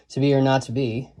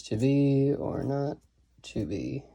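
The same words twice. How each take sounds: First: Said in the usual way. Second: "to be or not to be" slow and soft, in three iambs; soft, measured "to be ... or not ... to be", stepping down at the end; iambic scansion. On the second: Shown as a demonstration. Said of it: "this is three I ams".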